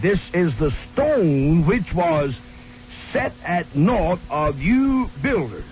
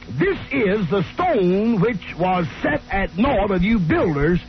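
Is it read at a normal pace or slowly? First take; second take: slowly; normal. First: It is read slowly and carefully. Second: It is read at a normal pace.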